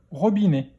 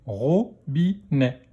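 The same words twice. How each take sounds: First: Said in the usual way. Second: Slow "Robinet", split into ro, bi, nè; syllable by syllable. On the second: Shown as a demonstration. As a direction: sound out "Robinet" in three beats. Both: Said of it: "dans quelle syllabe".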